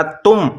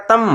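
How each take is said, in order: First: तुम with a short "u", as in "put"; short u vowel. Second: तम with a short "a", like "tum" in English tummy; inherent short a. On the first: Teacher shows learners the added vowel sign, तुम with short u. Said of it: "छोटे ऊ की मात्रा लगाएंगे". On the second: Teacher reads the letters before adding the vowel sign, तम with short a. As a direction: say तम with no u sound, just short a. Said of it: "ते को पेश का तलफ़ुज़ देना है". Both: Shown as a demonstration.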